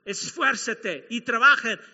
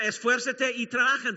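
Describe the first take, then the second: First: Esfuérzate y trabajen said slowly and louder, leaning on trabajen; slow emphatic command. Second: Said in the usual way. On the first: Shown as a demonstration. Preacher to the congregation, slow emphatic Esfuérzate y trabajen. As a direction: hammer home Esfuérzate y trabajen, stressing trabajen. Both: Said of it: "Déjame decirlo de nuevo".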